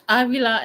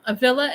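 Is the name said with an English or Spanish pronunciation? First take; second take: Spanish; English. First: It is pronounced the Spanish way. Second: It is pronounced the English way. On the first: "in Spanish" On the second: "in English"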